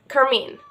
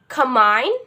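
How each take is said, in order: First: It is said with an American accent. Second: It is said with a British accent. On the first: "I prefer this one. This is like fast and easier" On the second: "in the British accent"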